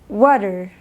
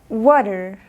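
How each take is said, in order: Both takes have the same delivery.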